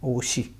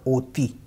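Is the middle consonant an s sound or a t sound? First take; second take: s sound; t sound. First: The middle consonant is an s sound. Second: The middle consonant is a t sound. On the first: The speaker calls it right. "ये स जो हमारा है ये मूव होकर के यहाँ चला जाएगा" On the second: The speaker calls it wrong. "ओती नहीं पढ़ेंगे"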